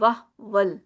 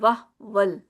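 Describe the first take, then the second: First: The vowel after h is dropped, lips unrounded. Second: The same.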